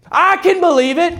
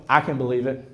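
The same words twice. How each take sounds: First: High, rising exclamation of faith; acted high-voiced affirmation; excited belief. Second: Low, soft, matter-of-fact reply; understated pastor's reply; calm belief. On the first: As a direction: pitch it up high, exultant. Emphatic answer to good news. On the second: Acted. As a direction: say it quietly and low, unsurprised. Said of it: "And I'm gonna go".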